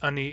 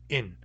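First: The word is said with two syllables. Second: The word is one syllable with a glottal stop. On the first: This is the Barkly Sound dialect form. "is only pronounced ani in Barkly Sound dialects" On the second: This is the Central Northern dialect form. "In Central Northern dialects, it's pronounced in, glottal stop I-N"

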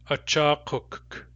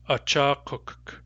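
No difference in how they are said.

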